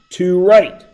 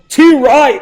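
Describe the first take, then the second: First: It is said in the speaker's plain accent. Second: It is said in a put-on Australian accent.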